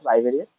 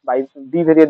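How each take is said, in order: First: 'Bai' runs straight into 'variate'. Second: An extra 'bee' syllable follows 'bai'. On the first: The speaker calls it right. "But এটা উচ্চারণ বাই ভেরিয়েট" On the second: The speaker calls it wrong. "যেটা বাই বি ভেরিয়েট বলে অনেকে"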